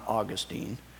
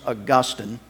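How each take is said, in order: First: The stress is on the first syllable. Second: The stress is on the second syllable. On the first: This is the name of the Florida city. The speaker calls it wrong. "not Augustine. Okay? Saint Augustine is in Florida" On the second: This is the saint's name. The speaker calls it right. "his name was Augustine"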